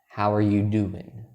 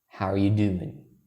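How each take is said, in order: No difference in how they are said.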